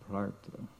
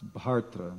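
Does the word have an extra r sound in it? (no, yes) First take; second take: yes; no. First: The word is said with an extra r sound. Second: The word is said without an extra r sound. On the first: The speaker calls it wrong. "I'm adding an extra R in there" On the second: The speaker calls it right. "It's Bhartra"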